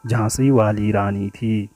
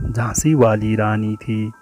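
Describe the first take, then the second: No difference in how they are said.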